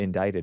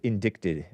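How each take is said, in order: First: The middle c is silent, rhyming with excited. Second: The middle c is pronounced like a k. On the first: This is how people say it aloud. The speaker calls it right. "when people would say indicted" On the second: The word was only known from reading. The speaker calls it wrong. "I used to think that was indicted because I used to read and not hear the"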